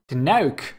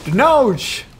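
First: The name ends with a 'k' sound. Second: The name ends with an 's' sound. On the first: The speaker calls it right. "It pronounced Denouk" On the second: The speaker calls it wrong. "I don't know how to pronounce that"

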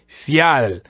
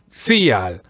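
First: The A is strong and the I weak. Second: The I is strong and the A weak. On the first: The speaker calls it right. "aim for that strong A" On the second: The speaker calls it wrong. "aiming for a strong I, which would sound like"

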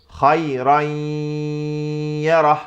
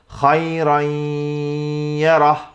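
First: The doubled y is said with nasal sound. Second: The doubled y is said with nasal sound.

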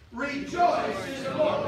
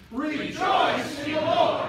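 First: It is said at normal volume. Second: It is said loudly.

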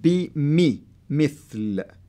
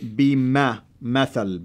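First: The vowel after the m is an 'i'. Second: The vowel after the m is an 'a'. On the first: The speaker calls it right. "the kasra will help you to say it" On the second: The speaker calls it wrong. "if it wasn't there, you can say"

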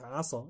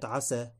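First: The s sound is emphatic and heavy. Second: The s sound is plain and light. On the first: The speaker calls it wrong. "إذا أخرج الإنسان السين مفخمة" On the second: The speaker calls it right. "كلمة عسى بالسين"

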